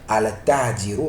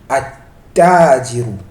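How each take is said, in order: First: The l is pronounced before the t. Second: The l is dropped and the t is doubled. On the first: The speaker calls it wrong. "On ne va pas dire" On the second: The speaker calls it right. "mais on dira at-tajiru, en appuyant sur le ta"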